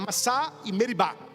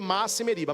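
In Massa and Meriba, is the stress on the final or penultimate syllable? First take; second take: final; penultimate. First: The names are stressed on the final syllable. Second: The names are stressed on the second-to-last syllable. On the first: The speaker calls it right. "a pronúncia certa é" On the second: The speaker calls it wrong. "Nas leituras geralmente a gente lê"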